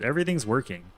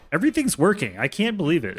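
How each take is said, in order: First: Said in the usual way. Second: Excited. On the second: Real, not acted. Streamer cheers as his build finally runs, excited. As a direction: blurt it out, thrilled it works.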